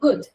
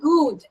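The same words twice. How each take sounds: First: The vowel is a short u sound. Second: The vowel is a long oo sound. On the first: The speaker calls it right. "It's ഗുഡ്" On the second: The speaker calls it wrong. "It's not ഗുഡ്"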